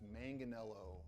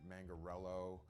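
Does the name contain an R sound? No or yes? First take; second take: no; yes. First: The name is said without an R sound. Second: The name is said with an R sound. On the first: The speaker calls it right. "It's it's" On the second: The speaker calls it wrong. "people that throw R's in it"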